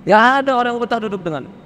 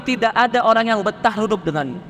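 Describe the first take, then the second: First: Rapid, pressing repeat of "Tidak ada orang yang betah duduk denganmu"; fast emphatic repeat. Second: Said in the usual way. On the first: Shown as a demonstration. Preacher hammering the point to the stubborn listener, fast. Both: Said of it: "repeated phrase".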